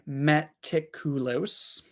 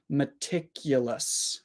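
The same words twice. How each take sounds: First: The unstressed vowels are full, clear vowels. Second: The unstressed vowels are reduced to schwa. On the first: The speaker calls it wrong. "So we don't say meticulous" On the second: The speaker calls it right. "Three schwa sounds"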